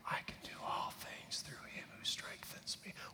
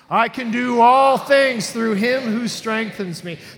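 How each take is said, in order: First: It is whispered very quietly. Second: It is said loudly and robustly.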